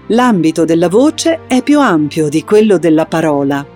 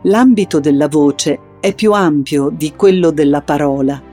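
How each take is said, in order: First: The voice is pitched high throughout. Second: The voice is pitched in the middle throughout. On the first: "poi alto, senza andare in falsetto" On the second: "poi medio"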